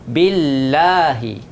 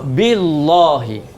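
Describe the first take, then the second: First: The L sound and vowel are thin. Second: The L sound and vowel are heavy. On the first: The speaker calls it right. "Baca nipis jika sebelumnya berbaris bawah" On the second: The speaker calls it wrong. "tak boleh"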